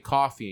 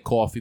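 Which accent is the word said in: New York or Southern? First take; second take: Southern; New York. First: It is said in a Southern accent. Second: It is said in a New York accent. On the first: "I can put on like a down south accent and say coffee" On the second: "We have a New York accent. Okay. We say coffee"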